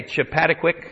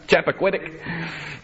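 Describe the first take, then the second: First: "Chappaquiddick" as chuh-PAT-uh-quick, stress on second syllable; unsure pronunciation. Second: "Chappaquiddick" slowly as SHAP-uh-KWID-ik; slow "Chappaquiddick", starting with SHAP, stress moved off the second syllable; corrected stress. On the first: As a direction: say "Chappaquiddick" tentatively as chuh-PAD-uh-kwik. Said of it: "Is that how you say it?". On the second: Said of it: "Gotta get the right place here in the accent". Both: Shown as a demonstration.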